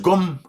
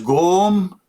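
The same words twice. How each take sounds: First: The vowel is short. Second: The vowel is long. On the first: It means power. "if I replace the W with O, it becomes Gom, means power" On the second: It means book. "long, means book"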